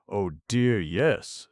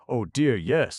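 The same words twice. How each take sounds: First: Mildly eager Jack's first reply, not loud; a quick, lightly lifted oh dear yes. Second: Higher and louder insistent repeat; emphatic yes. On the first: Jack answers the two ladies. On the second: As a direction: push the oh dear yes up with eager force. Jack repeats his answer, stronger. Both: Acted.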